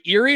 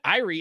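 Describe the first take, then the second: First: The name sounds like Lake Erie. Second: The name does not sound like Lake Erie. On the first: The speaker calls it wrong. "like Lake Erie" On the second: The speaker calls it right. "he said it right one time. He went Irie"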